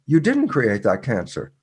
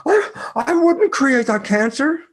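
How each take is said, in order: First: Said in the usual way. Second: High, offended denial, pitch jumping up; indignant protest. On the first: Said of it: "And I go". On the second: Retold or imitated. Patients answering the speaker with high, offended denial. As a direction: imitate them bristling at the idea. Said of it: "they look at me and go".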